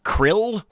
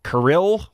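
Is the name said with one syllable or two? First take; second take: one; two. First: The name is said as one syllable. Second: The name is said as two syllables. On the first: "Like the little animals in the sea?" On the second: "Like two syllables?"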